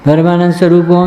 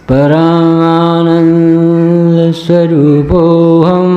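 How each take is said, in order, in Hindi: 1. यह वाक्यांश झटपट बोला गया है। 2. यह वाक्यांश धीरे और इत्मीनान से बोला गया है। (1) "ऐसे ऐसे नहीं बोलना ... कोई रिकॉर्ड थोड़ी बताना है" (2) "ऐसा बोल"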